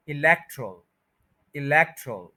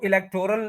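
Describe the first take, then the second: First: इलेक्टरल as i-LEK-trul, o dropped; corrected pronunciation. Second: इलेक्टोरल with a clear 'tor' syllable; wrong pronunciation. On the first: Teacher contrasting it with the mistake, इलेक्टरल with reduced 'trul'. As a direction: stress LEK and shorten the end of इलेक्टरल. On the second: Teacher citing what people often say, इलेक्टोरल with full o. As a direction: say e-lek-TOR-al for इलेक्टोरल. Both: Shown as a demonstration. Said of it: "जो कि गलत है".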